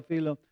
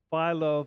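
First: "philo" with an ee sound, FEE-loh; second pronunciation of philo. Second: "philo" with a long i, FY-loh; first pronunciation of philo. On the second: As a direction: say "philo" to start like "file". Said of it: "philo, which". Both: Shown as a demonstration.

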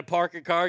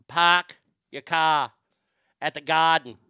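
First: Said in the usual way. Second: "park your car" as slow "pahk yuh cah", "garden" as "gahden"; Boston R-less pronunciation. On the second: Shown as a demonstration. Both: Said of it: "letter R does not belong".

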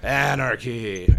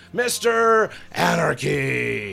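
First: Drawn-out, louder echo of the name; slow echoing name call. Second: Slow, stretched and louder; drawn-out ring announcer call. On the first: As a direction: stretch the name slowly as an echo. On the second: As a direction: draw the name out like a ring announcer. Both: Retold or imitated. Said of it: "then I'd rip off Mister Anderson with".

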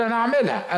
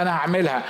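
First: هعملها pitched high like a haggling bargainer; high mock bargainer. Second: Said in the usual way. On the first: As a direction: toss off هعملها up high, half-promising. (المساوم بصوت عالي الطبقة يقول هعملها) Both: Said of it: "يقول".

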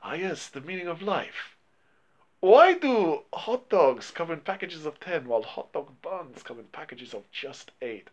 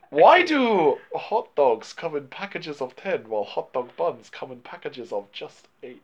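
First: Lightly imitating a Chinese master's accent; mock Chinese accent. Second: Slow, drawn-out put-on Chinese accent; sage-like mock Chinese accent, slowly; imitating a Chinese accent as a wise master. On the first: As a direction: imitate the sage, unhurried and light. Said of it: "that's how Chow Yun-fat says it". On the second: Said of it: "Why are you doing racist accents?".

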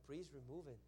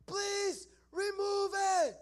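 First: Muted echo. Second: High, very slow, drawn-out scream. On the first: Preacher echoing the kid's plea, muted echo. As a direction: repeat the plea quietly, without the scream. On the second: Kid across the room begging for removal, screaming. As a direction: scream the plea, stretching every word. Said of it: "starts screaming another thing". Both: Retold or imitated.

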